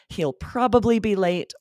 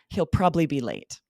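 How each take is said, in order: First: Probably is said with three full syllables. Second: Probably is shortened to two syllables.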